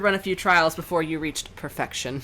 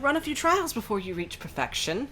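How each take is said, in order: First: It is said in the speaker's normal voice. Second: It is said in a put-on character voice.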